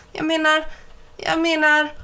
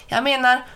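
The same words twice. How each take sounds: First: Higher, sing-song mimicry of "Jag menar"; mocking imitation. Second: Said in the usual way. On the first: A narrator's reading. Mike mimics Ben's stammer to tease him, high sing-song. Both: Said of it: "Han älskade att härma Ben".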